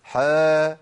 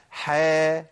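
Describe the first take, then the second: First: Long louder "حا" with dark vowel; wrong model: heavy drawn-out "حا"; wrongly heavy ha. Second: Long "حا" with thin front vowel; slow light model of "حا"; correct light ha. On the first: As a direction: swell "حا" into a thick, held "haw". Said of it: "يبقى ما اقولش حا". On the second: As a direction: hold "حا" lightly, like "hae". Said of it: "بجيب حاء الف". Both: Shown as a demonstration.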